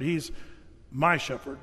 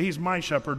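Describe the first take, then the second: First: "He's ... my shepherd" with "my" stressed and falling. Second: Said in the usual way. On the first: Shown as a demonstration. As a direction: pause after "He's", then lean hard on "my". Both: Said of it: "not just a shepherd, or even the shepherd".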